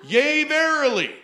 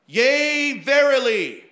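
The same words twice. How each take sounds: First: Loud, high prophetic intoning; hammed-up preacher proclaiming; mock prophetic declaration; mock prophecy. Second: Loud, high proclaiming; mock prophetic declaration; bold declaration. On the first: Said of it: "which if you've been in church charismatic circles". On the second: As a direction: boom it out like a prophecy. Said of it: "declaring boldly these, this phrase".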